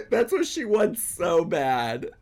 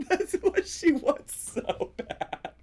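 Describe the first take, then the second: First: Laughing through the words; amused laughter. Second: Slower, higher laughing repeat; higher, slower, helpless laughter. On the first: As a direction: giggle as you say it. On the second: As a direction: squeal it out between laughs. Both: Real, not acted.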